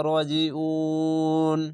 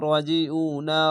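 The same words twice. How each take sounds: First: উন with a very long held "uu" before the final n; three-alif stretch. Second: Said in the usual way. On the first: Shown as a demonstration. Teacher shows stopping at verse end, উন stretched very long. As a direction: draw the উ of উন right out slowly, then stop on ন. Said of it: "তিন আলিফ টেনে পড়তে হবে". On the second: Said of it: "আর যদি থামেন".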